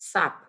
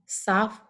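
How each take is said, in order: First: The word ends in an aspirated ph sound. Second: The word ends in a hissing f sound. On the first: The speaker calls it wrong. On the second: The speaker calls it right.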